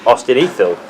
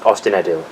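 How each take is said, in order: First: The middle consonant is a soft th sound. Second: The middle consonant is a hard d sound. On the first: The speaker calls it right. "D H is pronounced as a T H" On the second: The speaker calls it wrong. "not Ostinadil"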